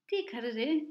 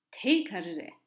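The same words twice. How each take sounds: First: Ti carré with a closed ee vowel in ti; teacher slips and says ti carré with ti as tee; wrong word said. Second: Te carré with te as an open teh, not tee; teacher corrects to te carré, te said as an open teh; corrected word. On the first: Teacher demonstrating the mistaken ti carré, ti said as tee. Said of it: "je ne devrais pas dire cela". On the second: Teacher correcting herself for students, te carré said as teh. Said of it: "je devrais dire". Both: Shown as a demonstration.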